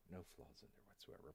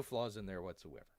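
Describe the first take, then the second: First: Hushed, low whispered repeat; muttered echo. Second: Said in the usual way. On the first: Pretend. YouTube bear repeating a mock disclaimer, muttered echo. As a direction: say it under the breath, very soft.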